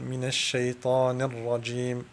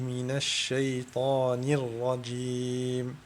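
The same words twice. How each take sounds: First: The kasra vowel is blurred toward silence. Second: The kasra vowel is clearly voiced with spread lips. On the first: The speaker calls it wrong. "il ne faut pas mélanger le kasra avec le soukoun qui donne" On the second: The speaker calls it right. "la façon juste pour prononcer le kasra, faire comme un mini sourire"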